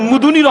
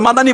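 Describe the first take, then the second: First: The name is said shortened with a u, Mudni. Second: The name is said with two full syllables, Madani. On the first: This is how the speaker's first teacher said the name. "বলতেন মুদনী" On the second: This is how most people say the name. "আমরা তো মাদানী বলি"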